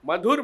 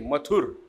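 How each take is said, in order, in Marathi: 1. मधला व्यंजन breathy voiced dh आहे. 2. मधला व्यंजन voiceless th आहे. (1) "मधुर म्हणायचं आहे" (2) "मृदू वर्ण आहे नाही मथुर"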